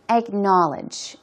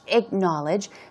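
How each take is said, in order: First: The stress is on the second syllable. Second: The stress is on the first syllable.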